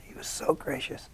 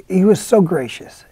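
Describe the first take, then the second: First: "He was so gracious." repeated in a soft, breathy whisper; hushed echo. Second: Said in the usual way. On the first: Real, not acted. Actor fondly recalling the gracious director, whispered echo.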